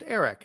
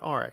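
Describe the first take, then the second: First: The name is said as Eric. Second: The name is said as Arik. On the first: The speaker calls it right. "pronounced Eric" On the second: The speaker calls it wrong. "not Arik"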